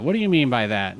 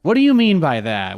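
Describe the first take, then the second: First: Said in the usual way. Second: Put-on high, loud valley girl question; lilting valley girl voice. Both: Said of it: "Why we sounding like a valley girl".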